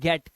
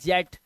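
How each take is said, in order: First: The word begins with a hard G sound. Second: The word begins with a J sound. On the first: The speaker calls it right. "इसे पढ़ते हैं गेट" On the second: The speaker calls it wrong. "इसे जेट नहीं पढ़ते actually"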